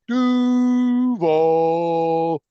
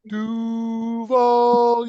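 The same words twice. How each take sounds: First: The pitch falls across the word. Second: The pitch rises across the word. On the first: The speaker calls it wrong. "They go down when they should go up" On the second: The speaker calls it right. "it should go up"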